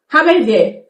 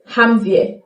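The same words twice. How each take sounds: First: Haben wir with haben said in full; careful Haben wir; full form. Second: Haben wir with haben squeezed to ham; quick slurred haben wir; reduced form. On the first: Teacher gives the full Haben wir. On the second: Teacher shows the fast spoken haben wir. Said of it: "saying haben wir fast". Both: Shown as a demonstration.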